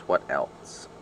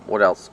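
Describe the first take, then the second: First: Whispered to self; whispering. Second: Said in the usual way. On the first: Real, not acted. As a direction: trail off into a whisper. Thinking aloud, trailing to whisper.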